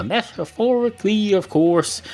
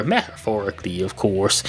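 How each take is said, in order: First: Metaphorically, of course, pitched much higher; raised-pitch repeat. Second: Said in the usual way. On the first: Shown as a demonstration. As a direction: repeat it higher, like giving a cue. Repeats the phrase as a cue.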